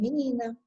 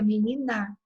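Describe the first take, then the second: First: The stress falls on the middle syllable. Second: The stress falls on the last syllable. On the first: The speaker calls it right. "a leitura é menina" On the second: The speaker calls it wrong. "Se ela tivesse acento, seria menina"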